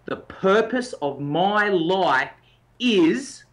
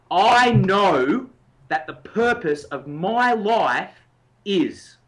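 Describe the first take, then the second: First: Said slowly and deliberately; slow statement. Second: "know" and "my" pushed louder and longer; stress on know and my. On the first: Coach showing the statement to the listener, slow and deliberate. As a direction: lay out each word of the statement slowly. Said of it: "the little statement that you need to work with is". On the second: Coach demonstrating the intensity, "know" and "my" hit loud. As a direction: lean hard on "know" and on "my". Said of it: "notice the emphasis on the particular words". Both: Shown as a demonstration.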